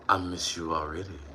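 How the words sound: It is read in a put-on voice.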